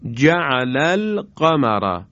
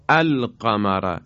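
First: The opening vowel is dropped, linked to the previous word. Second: The word begins with a pronounced glottal a-vowel.

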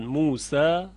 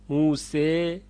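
First: The final vowel is a plain open a. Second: The final vowel is pulled close to e. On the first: "این فتح هست" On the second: "اماله هست"

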